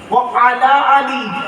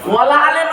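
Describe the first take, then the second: First: The words are separate and end in 'i'. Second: The words run together and end in 'e'. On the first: The speaker calls it right. "আছেটা কি? ও আলা আলি" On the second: The speaker calls it wrong. "ওয়ালা আলে নয়, ওয়ালা আলে বললে নফির মানে হবে"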